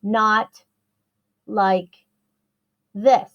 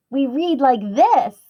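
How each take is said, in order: First: Robot-like word-by-word delivery; choppy word-by-word reading. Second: Said in the usual way. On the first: Shown as a demonstration. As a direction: read "not like this" with long pauses between each word. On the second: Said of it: "reading like we talk".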